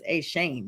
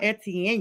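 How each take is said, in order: First: The name is said like 'ay-shane'. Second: The name is said like 'et-ee-en'. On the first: The speaker calls it right. "it's A. Shane" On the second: The speaker calls it wrong. "I heard that it's not Etienne"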